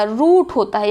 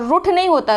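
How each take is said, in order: First: रूठ with a long oo; correct long vowel. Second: रूठ said short, as "ruth" with short u; wrong short vowel. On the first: Teacher correcting the word, drawn-out long vowel. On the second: Teacher quoting the mistake, short vowel. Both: Shown as a demonstration.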